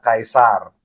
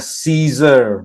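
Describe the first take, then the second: First: The word starts with a K sound. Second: The word starts with an S sound. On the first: This is how the Romans said it. "Orang Romawi bacanya" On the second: This is how English speakers say it. "Kalau orang Inggris bacanya"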